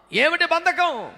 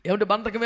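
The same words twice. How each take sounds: First: ఏమిటి బంధకం asked higher and slower, with బంధకం stressed; ఏమిటి బంధకం pushed higher with బంధకం stressed; rising challenge. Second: Said in the usual way. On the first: Shown as a demonstration. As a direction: press the question ఏమిటి బంధకం, leaning on బంధకం.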